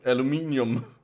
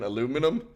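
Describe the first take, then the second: First: The word is said the Danish way. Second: The word is said the American way. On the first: "when I say it in but in but in Danish, it's alum aluminium" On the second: "I will use the American aluminum"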